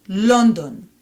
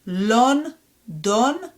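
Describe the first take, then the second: First: London joined as one word, falling; fluent Hebrew "London"; fluent reading. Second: London split into LON, DON, rising; "London" in two separate beats; syllable by syllable. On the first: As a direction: say "London" run together with round O vowels. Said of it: "more fluently". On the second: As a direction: sound out "London" with a gap. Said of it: "read it one more time". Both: Shown as a demonstration.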